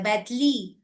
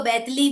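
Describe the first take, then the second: First: A light imitation of बैतली; child's mispronunciation. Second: Put-on बैतली said with l for r, like a small child; lightly imitated child saying बैतली; child's lisp. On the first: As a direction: repeat बैतली the way the boy says it. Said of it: "वो ल बोलता है". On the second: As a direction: mimic the son saying बैतली with an l in place of r. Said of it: "मेरा बेटा भी र नहीं बोल पाता".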